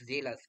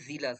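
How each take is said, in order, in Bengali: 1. প্রথম স্বরধ্বনিটি ছোট 'e' এর মতো শোনায়। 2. প্রথম স্বরধ্বনিটি 'ee' এর মতো শোনায়। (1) "নট জেলাস" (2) "উচ্চারণ কি? জিলাস"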